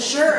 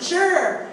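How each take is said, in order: First: Said in the usual way. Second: "Sure" said high with a laugh; a bright, amused "Sure" with a chuckle; "Sure" laughed out on a falling tune. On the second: Retold or imitated. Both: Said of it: "it just came out of my mouth".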